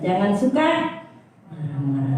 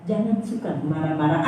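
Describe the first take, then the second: First: "Jangan suka" lifted and slow, "marah-marah" dropped low; drawn out, with a fall on "marah-marah"; slow emphatic repeat. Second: Said in the usual way. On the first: Shown as a demonstration. Preacher repeating the verse so it sticks, slow and emphatic. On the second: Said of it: "Saya ulangi supaya itu tertanam".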